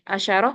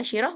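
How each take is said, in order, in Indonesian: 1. Bunyi sh diikuti vokal a. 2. Bunyi sh diikuti vokal i. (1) "boleh kita baca dalam bentuk fathah" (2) "boleh kita baca dalam bentuk kasroh"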